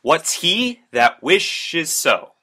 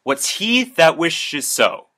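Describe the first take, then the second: First: "What's he that wishes so?" read very slow, heavy on "he" and "wish"; iambic rhythm. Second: "What's he that wishes so?" read slow, each beat marked; stressed and unstressed syllables. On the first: Teacher repeating the line to show its rhythm, even slower. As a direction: stretch the line, da-DUM da-DUM. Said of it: "a very rhythmic sort of pattern". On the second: Teacher reading a Shakespeare line to the class, slow and rhythmic. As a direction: tap out the iambic beat, unstressed then stressed. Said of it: "note the stressed and unstressed syllables".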